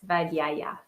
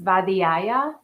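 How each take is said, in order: First: No extra vowel is heard in the middle. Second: An extra e vowel is heard in the middle. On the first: This is the speaker's own pronunciation. "That's how I say it" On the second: Someone else said it this way. "So there was a E at the in the middle of it"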